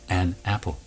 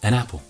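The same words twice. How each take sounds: First: The two words are said separately, not linked. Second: The n runs straight into the vowel. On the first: The speaker calls it wrong. "We don't say" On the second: The speaker calls it right. "When we're speaking naturally, it becomes"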